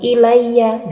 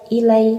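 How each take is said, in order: First: A vowel is added after the final y. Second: The final y is short and unpressed. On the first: "itu juga kurang tepat" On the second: "itu kurang tepat"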